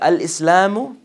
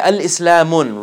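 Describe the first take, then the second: First: The word ends in a vowel, no n. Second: The word ends with an added n sound. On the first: The speaker calls it right. "It's either al-Islamu or Islamun" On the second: The speaker calls it wrong. "So you want to say al-Islamun, wrong"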